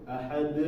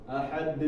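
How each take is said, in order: Both takes have the same delivery.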